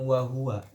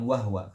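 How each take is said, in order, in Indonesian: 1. Bunyi h diikuti oleh vokal. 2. Bunyi h langsung diikuti oleh w. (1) "Kalau mengatakan riwayat Hafs, dia pasti bacanya dengan wahwa" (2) "bukan wahwa, karena wahwa bukan riwayat Hafs"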